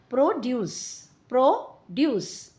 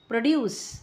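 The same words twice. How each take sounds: First: प्रोड्यूस as a noun, PRO-duce; weight the first syllable of प्रोड्यूस, split in two beats; noun stress. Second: प्रोड्यूस as a verb, pro-DUCE; short first syllable, weight on the end of प्रोड्यूस; verb stress. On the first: Teacher reads the noun aloud, first syllable of प्रोड्यूस stressed. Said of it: "ठीक है, noun". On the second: Teacher reads the verb aloud, second syllable of प्रोड्यूस stressed. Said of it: "ठीक है, verb". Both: Shown as a demonstration.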